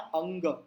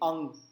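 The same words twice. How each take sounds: First: The word ends with an audible g sound. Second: The word ends on a nasal with no g. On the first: "वो आखिरी का जो ग है ना" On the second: "अब वो ग हटा दीजिए"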